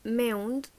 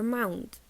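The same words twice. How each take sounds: First: "mound" with an eh-oo glide; fronted MOUND vowel. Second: "mound" with an ah-oo glide; open MOUND vowel. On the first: Teacher showing an Irish variant, fronted vowel. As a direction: say "mound" close to meh-oond. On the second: Teacher showing the second variant, open vowel. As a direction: say "mound" as mah-oond. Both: Shown as a demonstration. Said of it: "This can be".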